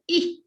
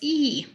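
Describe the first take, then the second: First: The vowel is short. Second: The vowel is long. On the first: The speaker calls it wrong. "Instead of E" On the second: The speaker calls it right. "it's E"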